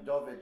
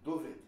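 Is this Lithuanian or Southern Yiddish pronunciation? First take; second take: Lithuanian; Southern. First: It has the Lithuanian Yiddish stressed vowel. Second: It has the Southern Yiddish stressed vowel. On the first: "in Vilna" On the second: "in Warsaw"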